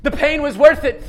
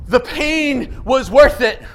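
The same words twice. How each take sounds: First: Quicker, rising on worth; rising restatement. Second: Slow, weighty, marveling; slow emphatic realization. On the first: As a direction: affirm it back to the room. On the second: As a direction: let each word land slowly. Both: Acted.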